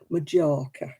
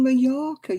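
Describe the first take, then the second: First: The middle consonant is a hard 'j' sound. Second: The middle consonant is a 'y' sound. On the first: The speaker calls it wrong. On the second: The speaker calls it right.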